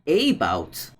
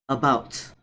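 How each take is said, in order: First: The first vowel is a full, clear vowel. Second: The first vowel is a weak schwa. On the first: The speaker calls it wrong. "not about" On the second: The speaker calls it right. "there's a hidden schwa"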